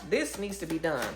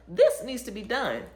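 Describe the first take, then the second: First: Said in the usual way. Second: "This needs to be done" slow and loud, "This" hit hard; "This needs to be done" as a slow forceful command; firm insistence. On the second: Shown as a demonstration. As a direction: lean on "This" and drag it out.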